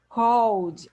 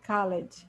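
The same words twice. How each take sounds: First: The ending is said without a separate vowel. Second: The ending is said as an extra syllable. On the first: The speaker calls it right. "when I say here" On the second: The speaker calls it wrong. "I don't say"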